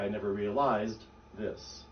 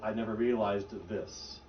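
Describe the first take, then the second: First: The D at the end of realized is stopped. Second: The D at the end of realized is released. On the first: The speaker calls it right. "You'd say, ... So I'm stopping my D" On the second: The speaker calls it wrong. "you wouldn't say"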